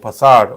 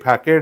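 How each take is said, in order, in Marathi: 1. मधला व्यंजन 'S' आवाजाचा आहे. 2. मधला व्यंजन 'K' आवाजाचा आहे. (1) "फसाड होतो" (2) "फॅकेड नाही होत"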